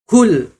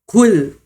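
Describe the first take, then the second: The two takes are said the same way.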